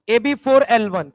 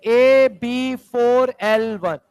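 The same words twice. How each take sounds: First: Said in the usual way. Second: Formula drawn out very slowly; slow and deliberate. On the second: Shown as a demonstration. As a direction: stretch each part of the formula for the class. Repeats formula slowly for class.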